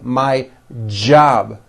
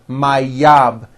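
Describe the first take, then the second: First: The word begins with a strong J sound. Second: The word begins with a Y sound. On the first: The speaker calls it right. "with a strong J sound" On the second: The speaker calls it wrong. "It's never yob"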